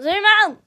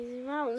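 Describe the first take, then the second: First: Much louder and higher shout; shouted order. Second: Said in the usual way. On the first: Real, not acted. Frustrated at the camera, shouting zoom out. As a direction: yell it at the camera. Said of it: "Sorry, zoom out".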